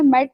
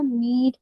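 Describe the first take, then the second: First: मेट with a short e, not ee; short vowel. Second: मीट with a long ee; long vowel. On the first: Teacher showing the wrong reading, मेट with short e. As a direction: say मेट briefly with an e sound. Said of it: "मेट तो नहीं पढ़ सकती". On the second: Teacher showing the right reading, मीट with long ee. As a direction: hold the ee sound in मीट. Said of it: "इसको मुझे long ही पढ़ना पड़ेगा". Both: Shown as a demonstration.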